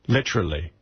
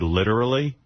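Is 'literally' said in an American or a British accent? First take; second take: British; American. First: It is said in a put-on British accent. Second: It is said in a plain American accent. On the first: The speaker is pretending to be British. The speaker calls it wrong. "they're trying to be British" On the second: This is the ordinary way of saying it. The speaker calls it right. "instead of saying the word literally"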